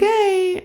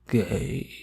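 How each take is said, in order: First: It is said in a bright, happy way. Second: It is said in a flat, gloomy way.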